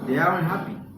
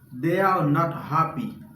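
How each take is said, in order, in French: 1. La négation est contractée en un seul mot court. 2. La négation se prononce en deux mots entiers. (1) "Le natif la a pale ... li pa pran tan pou li di tout sa" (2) "Sa se ou menm ka pale anglais"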